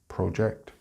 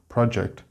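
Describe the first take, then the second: First: The stress is on the second syllable. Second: The stress is on the first syllable. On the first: It is used as a verb. "when used as a verb, it is on the second syllable" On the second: It is used as a noun. "when used as a noun, the stress is on the first syllable"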